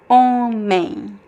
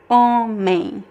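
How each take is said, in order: Both takes have the same delivery.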